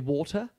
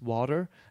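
First: It is said in a London accent. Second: It is said the way locals say it. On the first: "And I used to say water" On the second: "And actually here is water"

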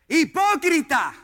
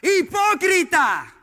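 First: It is said loudly and forcefully. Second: It is said even louder and more forcefully.

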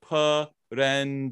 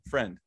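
First: The word is split into three syllables. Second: The word is said as one syllable. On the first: The speaker calls it wrong. "three syllables" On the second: The speaker calls it right. "it's got one syllable"

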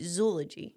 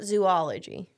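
First: The first syllable sounds like zoe. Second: The first syllable sounds like zoo. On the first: The speaker calls it right. "it's supposed to rhyme with eulogy, so it's supposed to be zoology" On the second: The speaker calls it wrong. "So it's not zoology"

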